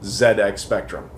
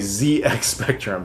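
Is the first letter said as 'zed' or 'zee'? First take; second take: zed; zee. First: It is said the British way, 'zed'. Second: It is said the American way, 'zee'.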